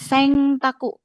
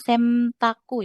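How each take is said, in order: First: The nasal before the t sounds like ng. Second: The nasal before the t sounds like m. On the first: "bukan Sengtaku ya" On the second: "bukan Semtaku ya"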